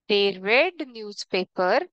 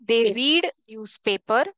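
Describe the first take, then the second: First: The verb has a short 'e' vowel, like 'red'. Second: The verb has a long 'ee' vowel, like 'reed'. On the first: It happened in the past. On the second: It happens regularly, in the present.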